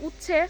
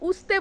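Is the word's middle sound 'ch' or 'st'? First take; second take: ch; st. First: The middle sound is an aspirated 'ch'. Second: The middle sound is an 'st' cluster. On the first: This is the proper standard pronunciation. The speaker calls it right. "এটা হবে appropriate উচ্চারণ" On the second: This is how people there usually say it. The speaker calls it wrong. "আমরা তো উস্তে বলি"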